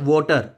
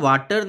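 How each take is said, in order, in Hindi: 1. पहला स्वर गोल हुआ 'aw' ध्वनि है। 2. पहला स्वर खुला 'ah' ध्वनि है। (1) "एक्चुअल सेंस में वो होता है वोटर" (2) "वाटर नहीं होता एक्चुअल सेंस में"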